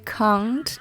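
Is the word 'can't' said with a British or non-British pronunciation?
British. It is said with a real British pronunciation. The speaker calls it right. "Real British accent would say can't"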